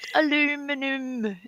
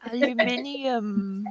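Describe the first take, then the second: First: The word is said with four syllables. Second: The word is said with five syllables. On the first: The speaker calls it wrong. "You steal letters from that lovely word to come up with aluminum. No, it's not aluminum" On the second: The speaker calls it right. "We say it properly. Aluminium. We put in all the letters"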